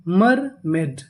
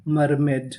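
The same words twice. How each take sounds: First: "मर मेड" in two drawn-out, separate parts; syllable by syllable. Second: Said in the usual way. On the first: Shown as a demonstration. Teacher puts the word together for learners, "मर मेड" in two separate pieces. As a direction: split "मर मेड" with a clear gap. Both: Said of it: "पूरी meaning".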